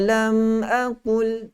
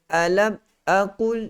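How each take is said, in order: First: The m is held with a light nasal hum. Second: The m is cut off abruptly without nasal hum. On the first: The speaker calls it right. "So kena ada" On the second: The speaker calls it wrong. "Dia cut terus"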